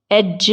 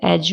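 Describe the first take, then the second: First: एज with d before j; एज, d stop released into j; sounded D. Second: एज with a simple j; एज, no separate d; silent D. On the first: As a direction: say एज as ed-juh. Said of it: "एज नहीं बोलते हैं". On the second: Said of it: "एज बोलते हैं". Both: Shown as a demonstration.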